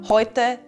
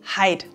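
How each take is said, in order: First: The first vowel is said like 'oy'. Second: The first vowel is said like 'eye'. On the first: This is the standard German form. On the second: This is the local dialect form.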